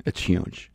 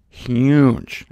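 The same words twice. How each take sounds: First: It's huge whispered in an awed hush; whispered repeat. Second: Huge said louder and punched; emphatic exclamation. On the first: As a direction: lean in and breathe it out. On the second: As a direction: land the word huge like a reveal. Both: Acted.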